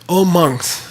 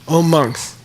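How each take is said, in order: Both takes have the same delivery.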